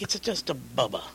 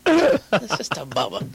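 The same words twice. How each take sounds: First: Said in the usual way. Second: Drawn out, louder and higher; slower hammed-up repeat. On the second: Retelling his answer about the plate, slow hammed-up insistence. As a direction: lean on it slowly, a bit goofy. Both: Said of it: "I'm like".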